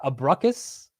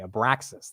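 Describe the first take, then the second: First: The word ends with a 'kus' sound. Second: The word ends with a 'ksas' sound. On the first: The speaker calls it wrong. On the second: The speaker calls it right.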